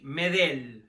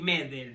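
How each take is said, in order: First: The stress is on the second syllable. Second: The stress is on the first syllable. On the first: The speaker calls it right. "sino Gary Medel, ¿eh? Sin tilde" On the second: The speaker calls it wrong. "Nada de Gary Medel, no, no lleva acento en la primera E"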